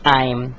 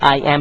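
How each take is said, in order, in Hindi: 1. यह एक संकुचित अक्षर के रूप में कहा जाता है। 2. यह दो पूरे शब्दों के रूप में कहा जाता है। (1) "आपको कहना पड़ेगा आई एम" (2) "कॉन्ट्रैक्टेड फॉर्म को आप आई एम नहीं कह सकते"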